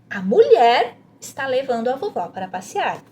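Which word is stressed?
mulher. The emphasis falls on the word mulher. "leia essa frase enfatizando a parte que está sublinhada, que é a mulher"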